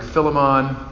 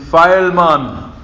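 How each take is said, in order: First: It is said in a plain accent. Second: It is said in a Jamaican accent. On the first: "I think I've heard like Philemon" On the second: "or if you're Jamaican"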